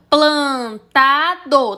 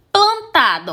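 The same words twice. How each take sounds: First: "Plantado" slowly split into three syllables; sílaba por sílaba. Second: Said in the usual way. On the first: Shown as a demonstration. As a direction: say "Plantado" one beat at a time. ("Plantado" devagar, sílaba por sílaba) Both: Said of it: "Tem três sílabas".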